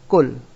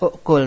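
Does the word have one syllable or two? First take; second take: one; two. First: The word has one syllable without an initial vowel. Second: The word has two syllables with an initial vowel. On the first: The speaker calls it right. "namun dibaca kul" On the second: The speaker calls it wrong. "tidak dibaca u'kul"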